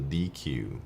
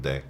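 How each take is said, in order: First: It is said as two letter names. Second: It is said as one short syllable. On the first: "It seems like it should be D Q" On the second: "people just pronounce it deck"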